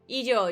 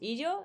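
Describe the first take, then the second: First: It is called out as if from far away. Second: It is asked as a concerned check-in.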